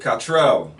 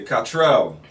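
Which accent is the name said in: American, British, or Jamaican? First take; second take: Jamaican; Jamaican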